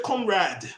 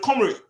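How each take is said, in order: First: It is said with a plain English accent. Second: It is said with a Russian-sounding accent. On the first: "They don't say comrade, you know, in the English fashion" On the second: "they say it with that Russian tune"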